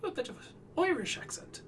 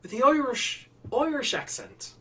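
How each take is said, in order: First: High, fast Irish lilt; light Irish accent, quick and high. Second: Higher, forward Irish placement; Irish accent, resonance forward. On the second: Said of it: "The resonance is, like, way forward". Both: Shown as a demonstration.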